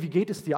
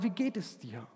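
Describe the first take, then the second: First: The question is asked in a light, casual tone. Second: The question is asked in an earnest, sincere tone. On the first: It is only a polite greeting. The speaker calls it wrong. "das Oberflächliche, hey, freundlichkeitsmäßige" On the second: The asker truly wants to know. The speaker calls it right. "Sondern wir meinen"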